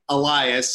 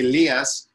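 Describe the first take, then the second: First: The name is said with American pronunciation. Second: The name is said with Greek pronunciation. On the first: "American people would say Elias" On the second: "in Greek we would say Elias"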